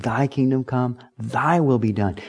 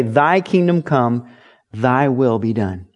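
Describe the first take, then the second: First: Soft prayer. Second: Prayer recital. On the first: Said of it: "taught to pray". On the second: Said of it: "Jesus taught the disciples to pray". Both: Shown as a demonstration.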